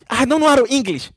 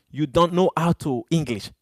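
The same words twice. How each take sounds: First: High-pitched mocking repeat of "I don't know how to English"; mocking echo. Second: Said in the usual way. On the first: Shown as a demonstration. Streamer mocking a troll's broken English, pitched high.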